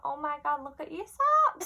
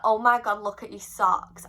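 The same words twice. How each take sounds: First: Very high, sing-out star impression. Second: Said in the usual way. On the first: Singer spotting a fan's socks, high gushing imitation. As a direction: squeal it like the singer, pitched far up. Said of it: "imagine it in her voice". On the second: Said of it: "But obviously in her voice".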